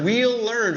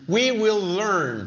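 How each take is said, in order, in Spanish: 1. We y will se contraen y se unen. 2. We y will se dicen como palabras completas. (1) "la forma corta ... acá también la podemos enlazar" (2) "oración full"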